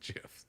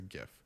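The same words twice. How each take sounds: First: The word begins with a soft G sound. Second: The word begins with a hard G sound. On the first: This is how the creator says it. "the creator of them said I pronounce it GIF" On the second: The G stands for graphic. "it's a hard G"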